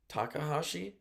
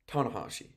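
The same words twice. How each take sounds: First: "Takahashi?" asked with a rise, softer; doubtful "Takahashi?" rising at the end; unsure question. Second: "Tanahashi." with a firm falling end; decisive falling "Tanahashi."; settling on it. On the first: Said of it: "One of the two". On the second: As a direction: state "Tanahashi." as the settled answer. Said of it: "Tanahashi is what I wrote". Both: Real, not acted.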